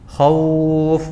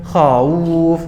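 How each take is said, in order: First: The au glide is said easily and relaxed. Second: The au glide is said with effort and strain. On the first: The speaker calls it right. "ya kan?" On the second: The speaker calls it wrong. "Bukan khauf, enggak. ... Ada beban di dalam mengucapkan wawu sukunnya"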